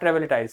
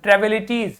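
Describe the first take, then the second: First: The word ends with a 'tize' sound. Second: The word ends with a 'teez' sound. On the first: The speaker calls it wrong. "Sorry not ट्रेविलिटाइज" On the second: The speaker calls it right. "तो ट्रेविलिटीज not ट्रेविलिटाइज"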